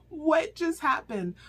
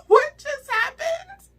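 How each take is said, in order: First: Calmer disbelief. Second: Much higher, much louder and slow, laughing in shock; stunned disbelief. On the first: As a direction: repeat it, still shaken but settling. Repeats reaction, calmer. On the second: Reviewer reliving the shocking scene, loud high stunned disbelief. Reacting to shocking book twist. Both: Real, not acted.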